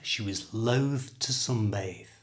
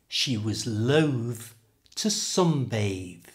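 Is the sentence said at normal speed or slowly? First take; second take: normal; slowly. First: It is said at normal speed without exaggeration. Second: It is said slowly with exaggerated emphasis.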